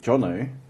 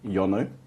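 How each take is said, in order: First: The name begins with a J sound. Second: The name begins with a Y sound. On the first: This is how the owner says the name. "I have shortened my name from [name] to Jono" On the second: This is how some other people say the name. "there's still people that goes Yono"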